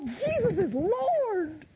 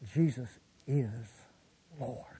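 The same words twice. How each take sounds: First: It is said with lively, excited energy. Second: It is said with calm, settled energy. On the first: The speaker is newly and exuberantly enthusiastic. "going to end up swinging off the chandeliers" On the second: The speaker holds the belief with settled maturity. "Most of the time I won't say it like that"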